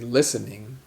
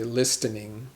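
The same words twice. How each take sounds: First: The T sound is silent in the middle. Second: The T sound is pronounced in the middle. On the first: The speaker calls it right. "we say listening" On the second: The speaker calls it wrong. "We don't say listening"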